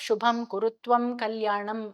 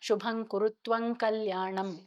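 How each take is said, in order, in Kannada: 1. ಪ್ರತಿ ಅಂತಿಮ m ತುಟಿಗಳನ್ನು ಸಂಪೂರ್ಣವಾಗಿ ಮುಚ್ಚುತ್ತದೆ. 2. ಪ್ರತಿ ಅಂತಿಮ m ಮುಂದಿನ ಶಬ್ದದೊಂದಿಗೆ ಮೂಗಿನ ಧ್ವನಿಯಲ್ಲಿ ಬೆರೆಯುತ್ತದೆ. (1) "ಬಾಯಿ ಮುಚ್ಚಿ ಮುಚ್ಚಿ ಹೇಳೋದಕ್ಕೆ ಎಕ್ಸ್ಟ್ರಾ ಎಫರ್ಟ್ ಬೇಕು" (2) "ಅನುಸ್ವಾರ ಅನುನಾಸಿಕದ ರೂಲನ್ನ ಅಪ್ಲೈ ಮಾಡ್ತೀವಿ"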